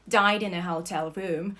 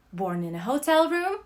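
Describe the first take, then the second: First: Died hit hard and loud, ending on a rise; stress on died. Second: Hotel pushed up and louder, rising; stress on hotel. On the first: Narrator landing O'Neill's punchline, died stressed. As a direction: punch died to answer born. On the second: Narrator setting up O'Neill's irony, hotel stressed. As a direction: lean on hotel with a lift. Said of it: "born in a hotel room, and goddamn it, died in a hotel room". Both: A narrator's reading.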